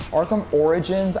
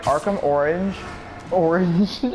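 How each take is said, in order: First: "Origins" in three syllables, OR-i-jins; corrected pronunciation. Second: "Origins" squashed into "Orange", two syllables; slurred slip. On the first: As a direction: sound out every syllable of "Origins". Corrects the slip after laughing. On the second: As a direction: stumble on the title, saying "Orange". Slips on Origins, then corrects it. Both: Real, not acted.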